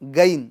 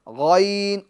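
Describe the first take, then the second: First: It starts with a hard g stop. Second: It starts with a full, throaty gh sound. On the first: The speaker calls it wrong. "गाफ नुमा पढ़ते हैं" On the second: The speaker calls it right. "गैन गैन गैन और पूर करना है"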